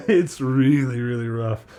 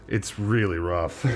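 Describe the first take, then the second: First: Laughing. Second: Said in the usual way. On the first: Real, not acted. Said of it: "laughing repeat". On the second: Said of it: "plain take".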